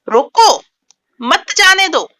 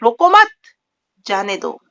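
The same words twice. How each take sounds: First: The pause comes right after roko. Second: The pause comes right after mat.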